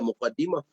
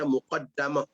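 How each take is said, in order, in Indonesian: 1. Vokal setelah d ganda itu 'i'. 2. Vokal setelah d ganda itu 'a'. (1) "Kita banyak baca muqaddimah" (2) "Muqaddamah tu wajah yang ya wajah yang dhaif"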